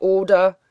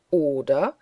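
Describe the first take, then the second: First: Loud, insistent questioning tag; bellowed, angry challenge; roared demand. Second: Scornful question, swooping up at the end; jeering, sharply rising echo; mocking echo. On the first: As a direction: hurl the question as a threat. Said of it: "brüllte Bischof Bonner mit Löwenstimme". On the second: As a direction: throw the question back in derision. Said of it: "echote der Bartlett Green höhnisch". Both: A narrator's reading.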